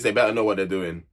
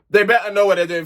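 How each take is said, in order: First: Said in the usual way. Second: Louder and higher, pressing the warning home; emphatic warning. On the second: Real, not acted. Vlogger warning Kaz and Luca, louder emphatic repeat. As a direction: say it again like a stern big sister.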